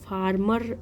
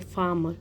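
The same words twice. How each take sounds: First: The r sound after the first vowel is pronounced. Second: The r sound after the first vowel is silent. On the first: The speaker calls it wrong. "इसे फार्मर ऐसे नहीं pronounce करेंगे" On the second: The speaker calls it right. "इसमें आर आपका silent रहेगा, ऐसे फार्मर इसे pronounce करते हैं"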